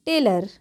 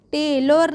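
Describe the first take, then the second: First: Said in the usual way. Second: टेलर ending in a full o, "tay-lor"; wrong spelling pronunciation. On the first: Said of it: "क्या पढ़ते हैं". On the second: Shown as a demonstration. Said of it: "टेलर नहीं पढ़ते हैं".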